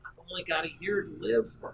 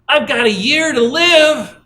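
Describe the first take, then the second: First: It is spoken softly and quietly. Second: It is spoken loudly and strongly.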